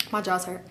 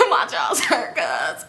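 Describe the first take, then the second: First: Low, soft deadpan; understated and softly muttered; deadpan excuse. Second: Mock whiny excuse. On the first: Retold or imitated. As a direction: say it quietly, like a lame excuse. Repeats her own excuse to friend. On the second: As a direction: squeal it slowly, laughing at yourself. Mocks her own excuse, laughing.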